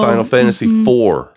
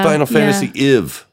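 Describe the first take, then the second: First: The numeral is said as a number. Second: The numeral is spelled out as letters. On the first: The speaker calls it right. "Instead of" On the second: The speaker calls it wrong. "people that pronounce Roman numerals like letters"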